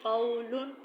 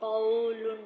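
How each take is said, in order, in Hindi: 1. बीच का स्वर नरमी से और छोटा बोला जाता है। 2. बीच का स्वर लंबा खींचा जाता है। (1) "बल्कि कौलुन" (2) "कौलुन नहीं पढ़ना"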